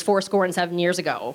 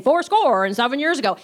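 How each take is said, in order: First: Said in the usual way. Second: Hammed-up repeated catchphrase; imitating novice Lincoln. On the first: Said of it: "all he knew of Abraham Lincoln". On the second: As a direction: proclaim it like a clueless amateur playing Lincoln. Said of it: "he kept saying".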